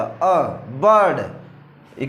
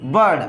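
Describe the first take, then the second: First: "अ, बर्ड" drawn out very slowly, the vowel अ held long before बर्ड; slow sound-out. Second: Said in the usual way. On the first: Shown as a demonstration. Teacher sounding out the vowel in bird for the class, very slowly. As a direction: stretch "अ" slowly, then land on "बर्ड". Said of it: "क्या उच्चारण आ रहा है आई का?". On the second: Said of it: "आई के बाद क्या आ रहा है?".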